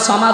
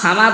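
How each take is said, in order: First: The first syllable is heavy with rounded lips. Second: The first syllable is light with spread lips. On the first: One who is free of all need. The speaker calls it right. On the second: One who is in need. The speaker calls it wrong.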